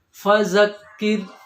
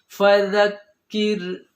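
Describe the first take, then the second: First: The consonant is a hissing z sound. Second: The consonant is a soft th-like sound. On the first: The speaker calls it wrong. "Kalau kita buat berdesis dia berubah menjadi zai" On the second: The speaker calls it right. "yang benar seharusnya"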